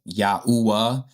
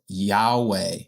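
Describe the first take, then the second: First: An 'oo' vowel is heard in the middle. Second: No 'oo' vowel is heard in the middle. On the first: The speaker calls it right. "that oo sound in Yah's name" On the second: The speaker calls it wrong. "that's not the correct way to say it"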